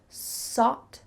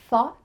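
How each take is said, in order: First: The word starts with an s sound. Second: The word starts with a th sound. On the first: The speaker calls it wrong. "sought instead of thought" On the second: The speaker calls it right. "Make sure that your tongue is between your teeth"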